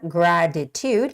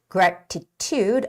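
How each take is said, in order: First: The middle T sounds soft, like a D. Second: The middle T is pronounced as a hard T. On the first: "It's more like a D sound there" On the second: "you can make the harder T sound"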